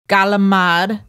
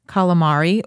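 First: It is said in a New York accent. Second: It is said in a plain accent, full ending.

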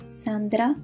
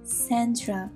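First: The name is said with Italian pronunciation. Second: The name is said with English pronunciation. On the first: "Sandra would be the right pronunciation in Italian" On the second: "In English, you would say Sandra"

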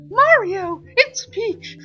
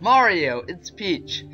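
First: It is said in a put-on character voice. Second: It is said in the speaker's ordinary voice.

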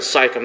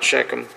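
First: The name begins with a plain s sound. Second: The name begins with an sh sound. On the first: The speaker calls it right. "Sychem, not Shechem" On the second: The speaker calls it wrong. "I mispronounced that"

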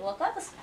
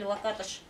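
First: The name ends with a plain 's' sound. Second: The name ends with an 'sh' sound. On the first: This is the usual local rendering of the name. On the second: This is how the name is said in his homeland.

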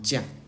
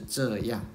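First: Two syllables are merged into one quick syllable. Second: Two syllables are said separately.

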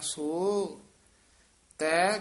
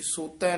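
First: There is a slight break after the first word. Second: The two words are run together without a break. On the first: The speaker calls it right. "ਸੋ ਪਦ ਤੇ ਯਮਕ ਲਾ ਕੇ ਉਚਾਰਨ ਕਰਨਾ ਹੈ" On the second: The speaker calls it wrong. "ਇਹ ਸੋਤੈ ਨਹੀਂ ਕਹਿ ਦੇਣਾ"

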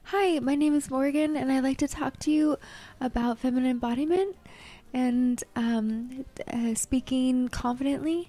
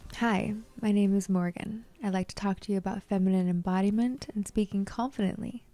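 First: It is said hesitantly, with fillers and breaks. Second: It is said confidently, smoothly and without fillers.

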